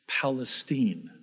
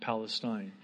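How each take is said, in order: First: The name is said in the local way. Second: The name is said in the usual way. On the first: This is how the town's residents say it. "Why do I pronounce it like that" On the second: This is the common way outsiders say it. "and not Palestine"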